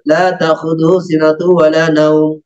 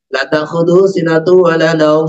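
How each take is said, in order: First: The vowel in the first 'la' is long. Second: The vowel in the first 'la' is short. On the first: Sleep cannot overtake Him. The speaker calls it right. "Jadi Allah tidak bisa ngantuk dan tidur" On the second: Sleep surely overtakes Him. The speaker calls it wrong. "la yang dia panjang dibaca pendek"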